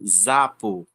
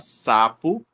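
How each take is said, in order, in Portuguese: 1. A palavra começa com um Z sonoro. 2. A palavra começa com um S sibilante. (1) "e não zapo" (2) "o S já tem o som de S"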